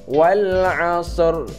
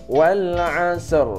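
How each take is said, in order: No difference in how they are said.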